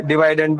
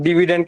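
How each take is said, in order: First: डिवाइडेंड with "vai" in the middle; long-i pronunciation. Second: डिविडेंड with short "vi" in the middle; short-i pronunciation. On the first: Teacher gives students the other variant, "vai" in डिवाइडेंड. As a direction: say डिवाइडेंड as "di-VIDE-end". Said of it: "डिवाइडेंड भी कहते हैं". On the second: Teacher gives students one variant, short-i डिविडेंड. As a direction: say डिविडेंड as "DIV-i-dend". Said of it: "कुछ लोग डिविडेंड कहते हैं". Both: Shown as a demonstration.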